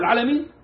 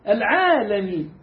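First: The word is snatched and rushed through quickly. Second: The word is said fully at an even pace. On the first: The speaker calls it wrong. "واحد يخطفها" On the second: The speaker calls it right. "خلص"

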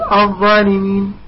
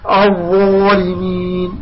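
First: The opening syllable sounds light and thin. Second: The opening syllable sounds heavy and full. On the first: The speaker calls it wrong. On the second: The speaker calls it right.

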